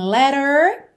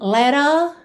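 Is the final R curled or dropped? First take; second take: curled; dropped. First: The final R is curled, American style. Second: The final R is dropped, vowel lengthened.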